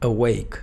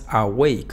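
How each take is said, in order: First: The first vowel is a weak schwa. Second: The first vowel is a full open a. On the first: The speaker calls it right. "sino E, awake" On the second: The speaker calls it wrong. "no es awake"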